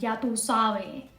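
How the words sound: It is said in an imitated Caribbean accent.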